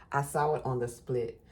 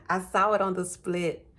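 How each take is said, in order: First: Said in the usual way. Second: Louder, higher, thrilled to see it; excited. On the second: Real, not acted. Tarot reader spotting the card, excited and loud. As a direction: blurt it out with real excitement.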